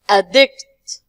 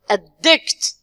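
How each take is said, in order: First: The stress is on the first syllable. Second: The stress is on the second syllable. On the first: It is used as a noun. "when we move to the nouns and adjective, we say" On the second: It is used as a verb. "we are going to stress the second one"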